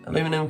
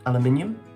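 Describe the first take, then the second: First: It is said the American way. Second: It is said the British way.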